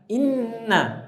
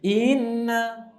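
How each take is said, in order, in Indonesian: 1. Vokal pertama langsung masuk ke huruf n. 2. Vokal pertama dipanjangkan sebelum huruf n. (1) "Harusnya inna langsung masuk ke nun" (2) "inna itu nambah ya sukun tuh"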